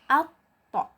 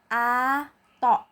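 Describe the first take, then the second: First: The consonant is held, then released with a bounce. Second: The consonant is run through without a bounce. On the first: The speaker calls it right. "outnya dibaca dulu, baru kemudian dipantulkan" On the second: The speaker calls it wrong. "bukan ato"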